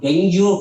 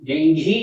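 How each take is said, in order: First: It ends in a plain 'gyoo' sound. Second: It ends in an aspirated 'ghi' sound. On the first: The speaker calls it wrong. "ಡೆಂಗ್ಯೂ fever ಅಂತ ಎಲ್ಲರೂ ಓದ್ತಾರೆ. ಅದು ಡೆಂಗ್ಯೂ fever ಅಲ್ಲ" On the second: The speaker calls it right. "ಡೆಂಘಿ ಅದು ಮಹಾಪ್ರಾಣ. ಡೆಂಘಿ ಜ್ವರ ಅಂತಲೇ ಹೇಳಬೇಕು"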